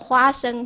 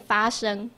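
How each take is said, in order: First: The word begins with an h sound. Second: The word begins with an f sound. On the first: The speaker calls it right. "譬如说花生" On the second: The speaker calls it wrong. "他就要念发生"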